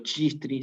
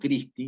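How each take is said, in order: First: It begins with a 'ch' sound, as in church. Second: It begins with a 'k' sound, as in kit. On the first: The speaker calls it wrong. "Yo no digo chistri" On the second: The speaker calls it right. "sino digo Christi. Entonces suena como una K"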